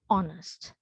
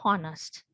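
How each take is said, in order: First: The H at the start is silent. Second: The H at the start is pronounced. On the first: The speaker calls it right. "here this H should be silent" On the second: The speaker calls it wrong. "some have been practicing to pronounce it as honest, but which is not correct"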